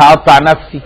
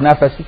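First: Said in the usual way. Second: نفسي with the ف bounced, said nefesi with an extra vowel after the f; نفسي, make the ف jump with a short echo vowel; bouncing qalqala on the f. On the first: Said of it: "يقول لك". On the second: Shown as a demonstration. Preacher mocking how Fatouta bounces the ف in نفسي. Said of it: "حتى هو بيقلقل الفاء".

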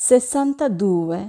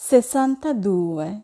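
Both takes have the same delivery.

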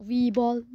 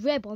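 First: "Rebel" said REE-ball; long ee in "Rebel", REE-ball; rejected name. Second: "Rebel" said REB-all; short e at the start of "Rebel", REB-all; intended name. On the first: Speaker rejects the misheard name, "Rebel" as REE-ball. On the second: Speaker insists on the right name, "Rebel" as REB-all. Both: Pretend. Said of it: "I said Rebel, not Rebel".

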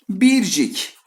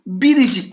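First: Bircik said without the inserted i, as two syllables; clipped wrong Bircik, no i in the middle; wrong form Bircik. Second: Biricik with the i clearly sounded, three syllables; right form Biricik. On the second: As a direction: spell out the middle i in Biricik. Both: Shown as a demonstration. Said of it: "Biricik diyeceğiz arkadaşlar".

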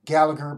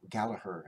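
First: Gallagher said with a hard g in the middle, GAL-la-ger. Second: Gallagher with the middle g dropped, GAL-la-her; silent g Gallagher. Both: Shown as a demonstration. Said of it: "but Gallagher, actually".

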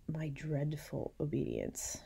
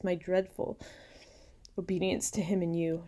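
First: Hushed, slow whispered aside; a slow confiding whisper. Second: Said in the usual way. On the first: Shown as a demonstration. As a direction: breathe the phrase out slowly. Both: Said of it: "She calls it her".

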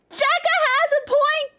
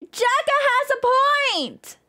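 First: Said in the usual way. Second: Jekka has a point dragged out slowly, stress on point; slow emphatic repeat. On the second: Real, not acted.

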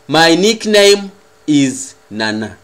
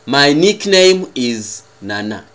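The two takes are said the same way.

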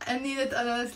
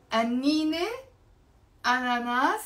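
First: "أنينة أناناس" as anninet ananas, run together; linking t pronounced. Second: "أنينة أناناس" as annine, pause, ananas, no linking t; silent ta marbuta. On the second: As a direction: offer "أنينة أناناس" with a rising vowel ending on أنينة. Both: Shown as a demonstration. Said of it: "لازم نلفظ الت المربوطة".

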